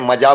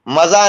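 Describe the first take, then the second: First: The word begins with a j sound. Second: The word begins with a z sound. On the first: The speaker calls it right. "मजा बोलते हैं हमारे यहाँ" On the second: The speaker calls it wrong. "मजा नहीं बोलते हैं"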